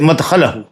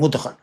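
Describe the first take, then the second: First: The first vowel is an 'a' sound. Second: The first vowel is an 'u' sound. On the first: The place of entering, meaning the grave. The speaker calls it right. "इससे अच्छा है कि मुदखल न पढ़ के मदखल पढ़ें" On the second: The act of being made to enter the grave. The speaker calls it wrong. "लोग अक्सर पढ़ते हैं वस्से मुदखला, मुदखल पढ़ते हैं मुदखल"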